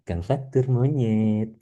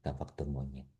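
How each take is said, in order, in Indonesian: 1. Diucapkan dengan nada ringan dan ramah. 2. Diucapkan dengan nada kasar dan menghina. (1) "Ekspresi saya juga visualnya" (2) "Tapi kalau misalnya beda, kalau ngomongnya"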